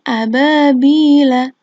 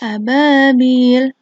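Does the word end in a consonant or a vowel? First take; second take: vowel; consonant. First: The word ends with a short a vowel. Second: The word ends on the consonant l. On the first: "ini ababila" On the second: "ini kita sukun ya lamnya"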